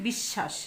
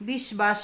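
First: বিশ্বাস said as bish-shash, ব silent and শ doubled; the right reading বিশ্বাস with a long sh; teacher giving the proper বিশ্বাস, no b sound; correct pronunciation. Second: বিশ্বাস said as bish-bash, the ব fully sounded; the mistaken reading বিশ্বাস with a clear b; wrong pronunciation. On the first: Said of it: "কি বলেছি?". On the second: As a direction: demo of the wrong বিশ্বাস, b not dropped. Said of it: "বিশ্বাস কিন্তু বলি নাই আমরা". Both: Shown as a demonstration.

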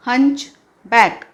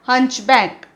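First: हंचबॅक said very slowly, syllable by syllable; slow clear pronunciation. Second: Said in the usual way. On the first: Shown as a demonstration. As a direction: stretch out हंचबॅक for the class to copy. (हंचबॅक अगदी सावकाश, स्पष्ट उच्चार) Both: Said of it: "उच्चार इथे लिहिला आहे".

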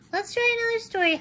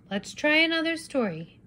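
First: Higher, fast eager chick echo; chirpy quick child voice; Little Red Chicken. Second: Said in the usual way. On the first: Acted. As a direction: rush it like an excited little chick. Chicken repeats Papa eagerly.

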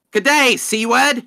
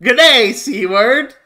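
First: Lightly mocking Australian greeting; a louder, higher hint of an Australian accent on "Good day". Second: Light parody Australian greeting; a louder hint of an Australian accent on "Good day"; mock Australian. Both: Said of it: "Australians just greet them".

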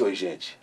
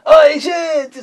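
First: Said in the usual way. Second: High, loud, sung-out "Oi, gente"; catchphrase greeting. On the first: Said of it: "estender esse". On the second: Shown as a demonstration. Host greeting circus kids from the car, high and loud. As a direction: belt it like a radio host to the crowd. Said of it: "esperando a tua hora".

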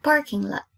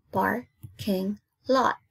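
First: Said in the usual way. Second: PARKING LOT slowly split into par, king, lot; syllable by syllable. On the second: Shown as a demonstration. Teacher counting three syllables for pupils, syllable by syllable. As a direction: break "Parking lot" into three slow beats. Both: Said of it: "Three syllables".

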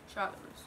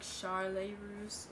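First: Said in the usual way. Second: Charlotte ending in "lay"; softly drawn-out "Shar-lay", no t; "Shar-lay Russe" pronunciation. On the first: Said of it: "if I'm saying it right". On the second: Shown as a demonstration. Asks viewers how to say it, French-style "Shar-lay". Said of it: "should I say".

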